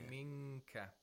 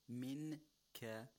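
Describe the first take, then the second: First: The n is hidden as a nasal before k. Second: The n is pronounced as a clear, full n. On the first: "becomes minka" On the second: "We have a nun sakina followed by the letter kaf"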